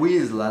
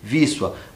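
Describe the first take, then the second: First: It is read as spelled, the Portuguese way. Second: It is pronounced the Polish way. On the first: The speaker calls it wrong. "Como eu li primeiro para vocês" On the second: The speaker calls it right. "e se lê Wisła"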